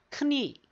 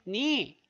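First: The k sound is pronounced before the n. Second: The k sound is silent before the n. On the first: "제대로 발음을 다 내면 크니" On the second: "K가 빠집니까? 그래서 발음이 니"

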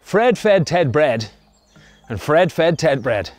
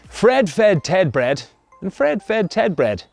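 Both takes have the same delivery.

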